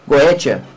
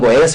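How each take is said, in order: First: The word is said with a clear 't' sound. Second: The word is said without a 't' sound. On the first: This follows the written spelling. "se está o T, você pode falar o T" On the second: This follows the Greek-based pronunciation. "uns falam Goécia"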